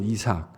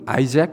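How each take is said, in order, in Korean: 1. 이 이름은 한국 소리로 'Isak'처럼 발음돼요. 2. 이 이름은 영어 소리로 'Eye-zak'처럼 발음돼요. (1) "한국말로는 이삭" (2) "영어로는 아이잭 이렇게 저희들이 발음하고요"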